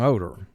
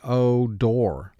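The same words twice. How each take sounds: First: The last syllable has a weak, reduced vowel. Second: The last syllable is said fully as 'door'. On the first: This is the everyday speaking pronunciation. "that's our speaking pronunciation of the word" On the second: This is distorted to match the spelling. "but for spelling to yourself, you say it silently"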